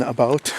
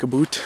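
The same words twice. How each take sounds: First: Said in the usual way. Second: "a boot" said like the word boot, Canadian-style about. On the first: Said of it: "than about". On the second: Shown as a demonstration. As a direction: say "a boot" with a long oo like boot. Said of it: "when they say about".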